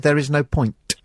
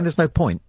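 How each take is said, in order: First: The final T is crisp and overpronounced. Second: The final T is soft and unreleased. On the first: "really overpronounce the T on the ends of words" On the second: "instead of saying"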